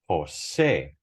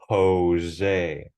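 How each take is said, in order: First: The stress is on the last syllable. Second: The stress is not on the last syllable. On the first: This is the Spanish way of saying it. "the emphasis is on the last syllable" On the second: This is the English way of saying it. "In English, we say Jose"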